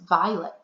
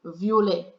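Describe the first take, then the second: First: Said in the usual way. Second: Violet as French vee-oh-LAY, no English ending; French pronunciation. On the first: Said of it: "like the English word violet". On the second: Shown as a demonstration. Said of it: "the French word for purple is violet".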